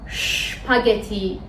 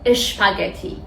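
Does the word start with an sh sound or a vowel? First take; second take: sh sound; vowel. First: The word starts directly with the sh sound. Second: A short vowel comes before the sh sound. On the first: The speaker calls it right. "میگیم" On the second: The speaker calls it wrong. "نمیگیم اشپاگتی"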